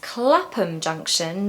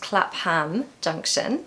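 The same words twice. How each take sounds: First: The ending of Clapham sounds like a weak 'um'. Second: The ending of Clapham sounds like a full 'ham'. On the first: The speaker calls it right. "which is pronounced, if you remember, as um" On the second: The speaker calls it wrong.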